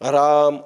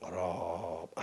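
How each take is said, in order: First: It is said in an ordinary, non-resonant voice. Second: It is said in a deep, low, resonant voice. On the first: The speaker calls it wrong. "राम असं नाही" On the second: The speaker calls it right. "आता मी खर्जाचा काढला स्वर. राम असं, याला घोष म्हणतात"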